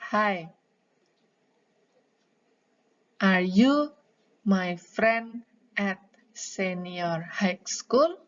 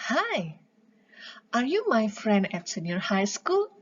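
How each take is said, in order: First: It is read haltingly, with stumbling breaks. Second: It flows smoothly and naturally, with expression. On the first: The speaker seems to be reading from a script. The speaker calls it wrong. "itu terbata-bata" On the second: The speaker sounds like they are really talking. The speaker calls it right. "Yang enak adalah"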